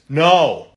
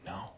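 First: It is said loudly. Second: It is said quietly.

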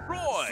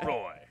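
First: The name is said in a bright, excited way. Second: The name is said in a low, threatening way. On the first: "and then enthusiastic" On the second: "Slightly menacing"

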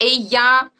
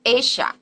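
First: The middle consonant sounds like English y. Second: The middle consonant sounds like English sh. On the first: This is how it is said in Spain. "which in Spain is normally pronounced like y" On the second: This is how it is said in Argentina. "in Argentina it will be pronounced esha"

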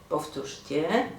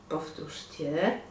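No difference in how they are said.

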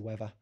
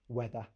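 First: The middle consonant is an f-like sound. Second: The middle consonant is a th sound. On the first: This is typical of South London speech. "pronounce your th's as as an F instead" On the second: This is how the speaker normally talks. "I do pronounce my T H's"

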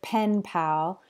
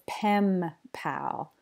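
First: The first word ends with an N sound. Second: The first word ends with an M sound. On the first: "instead of pen pal" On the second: "she says pem pal. Her lips come together to make the M sound"

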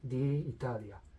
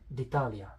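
First: The two vowels are kept in separate syllables. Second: The two vowels merge into one syllable. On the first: The speaker calls it wrong. "much more normal than the Italia" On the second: The speaker calls it right. "Pronounced as d'Italia. This is much more normal"

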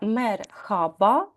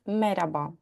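First: An h sound is heard in the middle. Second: No h sound is heard in the middle. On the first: "воно пишеться мерхаба. Там є літера Х" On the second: "в розмовній мові ... кажуть мераба"

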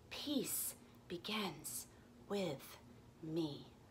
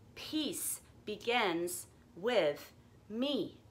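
First: It is spoken in a whisper. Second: It is spoken in a normal voice.

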